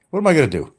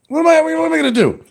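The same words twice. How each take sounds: First: Said in the usual way. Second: Exasperated high outburst. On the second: Real, not acted. Repeated in raised voice.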